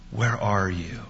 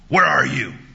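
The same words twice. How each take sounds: First: It sounds like a caring, concerned father. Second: It sounds like a harsh, accusing cop.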